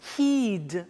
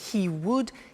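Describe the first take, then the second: First: Would is shortened to a d sound. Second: The word would is said in full.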